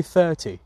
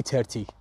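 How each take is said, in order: First: "ثرتی" said THUR-tee with English TH; correct "thirty". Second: "ترتی" said TER-tee with a hard T; Persian-style "ترتی", no TH at the start; wrong "thirty". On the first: Teacher telling students the right way, "thirty" with TH. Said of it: "بگی ثرتی". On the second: Teacher warning students off it, "thirty" with a T. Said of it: "نباید بگی ترتی". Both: Shown as a demonstration.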